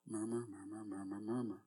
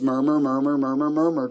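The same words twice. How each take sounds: First: It is said quietly. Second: It is said a little louder.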